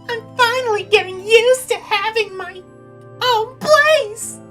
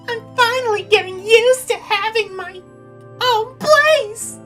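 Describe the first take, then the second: First: The line is said in a sweeter tone of voice. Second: The line is said in a sweeter tone of voice.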